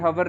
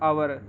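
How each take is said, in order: First: The word starts with an h sound. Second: The word starts with a vowel, h silent. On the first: The speaker calls it wrong. "ये हवर नहीं" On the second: The speaker calls it right. "इसको आवर बोला जाता है"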